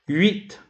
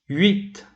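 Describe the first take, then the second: Both takes have the same delivery.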